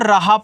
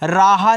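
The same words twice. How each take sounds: First: The first vowel is short, the last long. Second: Both the first and last vowels are long. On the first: The speaker calls it right. "इसको राहा पढ़ते हैं" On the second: The speaker calls it wrong. "दोनों पे ए से मानता लगा दोगे तो आपका गलत हो जाएगा"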